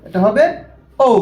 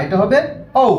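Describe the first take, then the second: Both takes have the same delivery.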